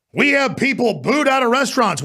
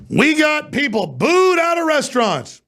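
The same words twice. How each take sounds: First: High-pitched mocking complaint; mock outrage. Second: Very high, drawn-out mocking wail; exaggerated mock outrage. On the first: Host mocking people upset at being booed out of restaurants, mock outrage. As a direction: parrot the grievance in a raised, scornful voice. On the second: Host ridiculing the booed-out-of-restaurants complaint, hammed-up mock outrage. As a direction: stretch BOOED high and long in scornful disbelief. Repeats the mocked complaint, bigger.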